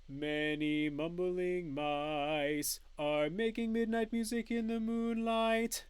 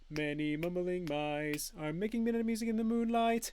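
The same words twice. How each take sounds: First: It is said at a slower pace. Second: It is said at the fastest pace.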